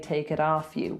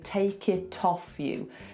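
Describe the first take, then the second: First: The T is pronounced like a D. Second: The T is pronounced as a clear T. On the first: "if we were being Californian, we would say take it off you with a D" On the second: "if we were being perfect received pronunciation"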